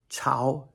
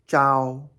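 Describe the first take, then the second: First: The syllable is said with a rising pitch. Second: The syllable is said with a high level pitch. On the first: "second tone" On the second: "first tone"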